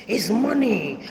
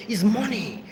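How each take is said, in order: First: Drawn-out mock. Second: Lightly voiced mother, clipped; mocking mother. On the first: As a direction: stretch it out, mocking her mother. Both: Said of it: "You see how I'm doing?".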